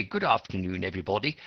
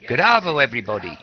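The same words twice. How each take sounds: First: Proper greeting. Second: Bright, loud radio-host hello, pitched up; Aussie radio host greeting. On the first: Shown as a demonstration. Teacher contrasts formal English with slang, proper greeting. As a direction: sound correct and polite. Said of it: "that's very proper". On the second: Retold or imitated. Radio DJ greets his listeners, loud upbeat slang greeting. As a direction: play the breezy Aussie DJ opening the show. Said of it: "this guy on the radio, just starting his show".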